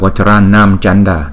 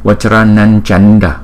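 First: The first word ends with an m sound. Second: The first word ends with an n sound. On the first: "Có rất nhiều vị vẫn đọc là Vacharanam Chanda thì không sai" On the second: "đó là cái luật mà chúng ta phải đọc chữ M như vậy"

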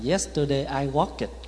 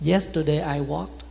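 First: The -ed ending is a full extra 'it' syllable. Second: The -ed ending is a light, short sound. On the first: The speaker calls it wrong. "Mà cái gì cũng ịt hết á" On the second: The speaker calls it right. "nhẹ thôi"

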